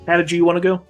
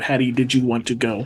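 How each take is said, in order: First: It is said fast, run together like one word. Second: It is said slowly, with the words kept separate.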